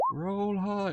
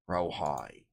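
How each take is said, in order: First: Pitched way up, eager; high excited plea. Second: Said in the usual way. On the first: Real, not acted. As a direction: urge the dice on excitedly. Dice roll.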